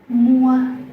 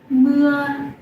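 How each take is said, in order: First: The vowel is said with rounded lips. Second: The vowel is said with spread, smiling lips. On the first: The speaker calls it wrong. "Many foreigners say it's mua" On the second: The speaker calls it right. "when you look at the u smile"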